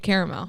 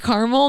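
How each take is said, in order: First: The word is said in a fancier pronunciation. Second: The word is said in an everyday pronunciation. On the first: The speaker is acting fancy when ordering. "when I'm ordering my hot chocolate with caramel drizzle" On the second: This is the usual way of saying it. "So I say caramel normally"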